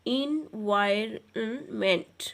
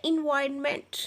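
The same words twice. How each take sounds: First: environment slowly split as इन... वाय... रन... meant; slow teacherly four-part environment; syllable by syllable. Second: Said in the usual way. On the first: Shown as a demonstration. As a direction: stretch environment into four separate beats. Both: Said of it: "ये four syllable word है".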